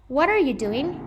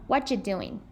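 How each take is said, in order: First: Every word is said fully and separately. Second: The words blend and some sounds disappear.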